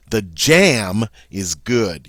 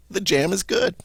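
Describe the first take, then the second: First: Jam stretched and punched, slow sentence; stress on jam. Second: Said in the usual way. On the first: Shown as a demonstration. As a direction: hit the word jam hard and long. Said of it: "You're emphasizing that it's the jam". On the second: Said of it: "What if you wanted to emphasize".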